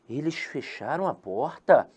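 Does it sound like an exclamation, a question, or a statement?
question. It is said as a question.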